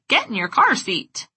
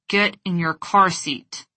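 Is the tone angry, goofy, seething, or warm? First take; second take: goofy; seething. First: It is said in a silly, goofy voice. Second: It is said through clenched teeth, seething. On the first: "With a wacky facial expression and a goofy voice" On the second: "With clenched teeth, squinted eyes, and a seething tone of voice"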